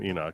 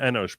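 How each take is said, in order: First: The name ends with a 'k' sound. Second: The name ends with an 'sh' sound. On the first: This is how other people say it. "We don't call him Enoch" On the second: This is how the speaker's own community says it. "we call him Enosh"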